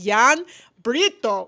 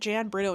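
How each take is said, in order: First: The name is said in a local Belgian way. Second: The name is said in a tourist's anglicized way. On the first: The speaker calls it right. "No, no, you typical tourist, it's Jan Brito" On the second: The speaker calls it wrong. "I'm staying at Jan Brito"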